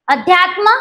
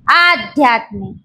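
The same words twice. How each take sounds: First: अध्यात्म with a short first vowel, left rising; short opening a. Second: Slow, low आध्यात्मिक with a stretched आ; long opening aa. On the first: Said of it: "काय बदल केलाय?". (अध्यात्ममधला ऱ्हस्व अ) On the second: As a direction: lengthen the first vowel of आध्यात्मिक. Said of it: "आ झाला ना". (आध्यात्मिकमधला लांब आ) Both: Shown as a demonstration.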